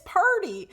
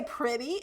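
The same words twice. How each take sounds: First: Pretty said as "purdy"; local girl's pronunciation. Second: Said in the usual way. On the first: Retold or imitated. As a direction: insist on "PUR-dee" for pretty. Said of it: "They would say purdy". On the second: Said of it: "You don't say pretty".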